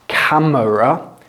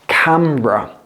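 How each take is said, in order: First: The middle vowel is pronounced in full. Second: The middle vowel is dropped entirely. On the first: The speaker calls it wrong. "Don't pronounce it camera" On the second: The speaker calls it right. "an E from camera"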